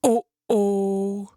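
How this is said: It is said in a big, deep voice.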